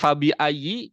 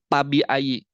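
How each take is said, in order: First: The first sound is made with lip and teeth. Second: The first sound is made with both lips. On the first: The speaker calls it right. "huruf F" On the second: The speaker calls it wrong. "jadi Pabi Ayi"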